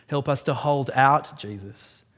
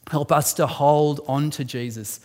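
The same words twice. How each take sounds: First: "out" in "hold out" punched; stress on out. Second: "on" in "hold on" leaned on; weight the word "on" in "hold on"; stress on on. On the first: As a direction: hit the word "out" in "hold out". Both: Shown as a demonstration.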